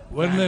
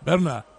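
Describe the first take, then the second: First: The name begins with a W sound. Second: The name begins with a V sound. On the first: The speaker calls it wrong. "Werner nunca" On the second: The speaker calls it right. "la W se lee V"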